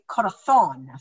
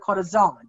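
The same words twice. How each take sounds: First: The z is said like a th sound. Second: The z is said like an s sound. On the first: This is how it is said in Spain. "But in Spain, they would say corazón, thon" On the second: This is how it is said in Mexico. "in Mexico, they would say like a heart is called a corazón, because they say the Z"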